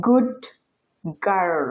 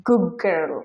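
First: Said in the usual way. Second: "গুড গার্ল" with the d dropped into a long g, "guggirl"; assimilated good girl. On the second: Shown as a demonstration. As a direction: blend "গুড গার্ল" so the d becomes g. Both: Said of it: "এই দুইটা শব্দকে ওরা উচ্চারণ করে".

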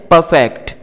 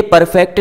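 First: परफेक्ट with the r silent, like pə-fect; correct pronunciation. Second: परफेक्ट with the middle r clearly sounded; wrong student pronunciation. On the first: Teacher giving the correct form with the r silent. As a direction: drop the r in परफेक्ट. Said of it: "ये आर silent होता है". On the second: Teacher showing students the common wrong way, r sounded. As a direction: say परफेक्ट as per-fect, rolling the r. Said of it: "इस शब्द को अक्सर student परफेक्ट बोलते हैं". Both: Shown as a demonstration.

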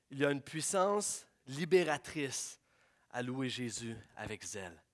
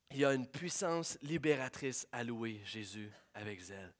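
First: «puissance» weighted, the line drawn out slowly; slow emphatic statement. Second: Said in the usual way. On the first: Shown as a demonstration. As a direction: lean into «puissance», slow and deliberate.

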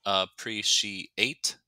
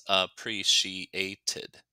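First: "appreciate" slow, each syllable apart; drawn-out teacher's model of "appreciate". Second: "appreciated" very slow, "ted" as an added syllable; drawn-out teacher's model of "appreciated". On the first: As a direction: sound out "appreciate" beat by beat. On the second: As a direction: sound out "appreciated" beat by beat, ending on a clear "tid". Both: Shown as a demonstration. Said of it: "to add one syllable".

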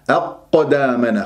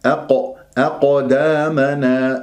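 First: أقدامنا stuck on ق with a gap; held qaf, wrong. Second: أقدامنا with ق bouncing off at once; strike and release. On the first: Teacher showing the mistake, blocked qaf. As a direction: hold the ق shut before releasing. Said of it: "ولا تمسكها". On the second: Teacher showing correct qalqala, slow with quick release. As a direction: hit the ق and escape, vowels drawn out. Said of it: "ضرب المخرج والهروب". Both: Shown as a demonstration.

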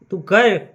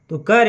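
First: તું કર said higher and louder, pressed hard; emphatic repeat. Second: Said in the usual way. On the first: A narrator's reading. Shiva ordering the Brahmin to keep the vow, emphatic. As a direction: insist on તું કર as a firm order.

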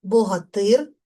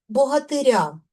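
First: Богатир stressed on final "тир"; stress on suffix. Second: Богатиря stressed on final "ря"; stress on ending. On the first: Teacher demonstrating nominative case stress, stress on suffix. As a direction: land firmly on "тир" in Богатир. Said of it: "наголос падає на суфікс". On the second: Teacher showing stress moving in genitive, stress on ending. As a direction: move the stress to the very end of богатиря. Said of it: "наголос падає на закінчення". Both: Shown as a demonstration.

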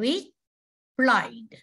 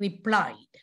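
First: Re-plied stretched very slowly; slow syllable split. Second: Said in the usual way. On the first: Shown as a demonstration. Teacher slowly sounding out replied for pupils. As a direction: draw replied out in two beats. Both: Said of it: "So replied".

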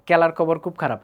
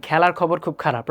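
First: Mymensingh unaspirated k for every kh; Mymensingh accent. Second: 'খেলার খবর' with aspirated k, a puff of air; standard kh. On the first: Retold or imitated. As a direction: say it the Mymensingh way, kelar kobor. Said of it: "Mymensingh জোনের সব মানুষরা". (ময়মনসিংহের টানে ক দিয়ে বলা) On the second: Shown as a demonstration. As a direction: clear kh stops in 'খুব খারাপ'. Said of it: "এটা হওয়ার কথা ছিল কি". ('খেলার খবর' প্রমিত খ দিয়ে)

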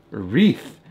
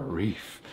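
First: "A wreath" said louder, with the r-ee-th ending clear; corrected. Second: "reef" said instead of wreath, no w or th sound; mispronounced. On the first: Correcting her slip for viewers, a firm "A wreath". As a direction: fix it firmly: "A wreath". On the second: Tripping over the word while describing a horse wreath, "reef" slip. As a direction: slip and say "reef" with a plain ee-f ending. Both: Real, not acted. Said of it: "Why can't I say that right?".

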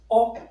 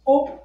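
First: O as an open "aw"; open O sound. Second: O as a closed, rounded "oh"; closed O sound. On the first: Teacher contrasting this letter for learners, open "aw" for O. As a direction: say O with a more open "aw" vowel. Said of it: "and this is O". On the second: Teacher recapping this one for learners, closed "oh" for O. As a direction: say O like a pure "oh". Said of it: "So this one is O". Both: Shown as a demonstration.

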